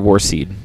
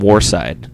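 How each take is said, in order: First: The second syllable rhymes with 'seed'. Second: The second syllable rhymes with 'side'. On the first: This is the corrected way the band now says it. The speaker calls it right. "actually it's Warseed" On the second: This is the older, mistaken way the band said it. The speaker calls it wrong. "they were pronouncing it Warside for the longest time"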